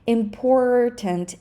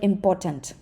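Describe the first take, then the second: First: The middle R sound is clearly pronounced. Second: The middle R sound is dropped. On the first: The speaker calls it right. "So please be careful with this R" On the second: The speaker calls it wrong. "If you say the word important without the R in the middle"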